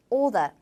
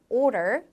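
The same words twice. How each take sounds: First: Non-rhotic British order; 영국식 order; British pronunciation. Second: 미국식 order; American pronunciation. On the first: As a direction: order said like oda, no R. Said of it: "영국 영어에서는 order". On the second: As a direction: order with both American Rs sounded. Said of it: "미국 영어에서 order". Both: Shown as a demonstration.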